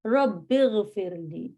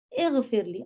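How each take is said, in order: First: "رب اغفر لی" slowly run together as rabbighfir-lee; joined pronunciation. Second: "اغفر لی" begun with a clear initial i; unjoined form. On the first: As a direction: glide from "رب" into "اغفر" with no separate i, drawn out. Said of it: "تو ای ہٹ جائے گا". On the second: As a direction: sound the opening vowel of "اغفر لی" as its own word. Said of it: "اب جب ہم اس کو جوائن کریں گے". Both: Shown as a demonstration.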